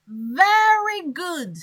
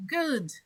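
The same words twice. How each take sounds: First: Very good said slowly and louder; stress on very. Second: Said in the usual way. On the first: Shown as a demonstration. Teacher contrasting good with very good for class. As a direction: stretch out Very good with weight. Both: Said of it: "This word is to emphasize the thing".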